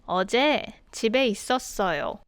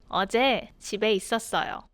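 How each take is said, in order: Both takes have the same delivery.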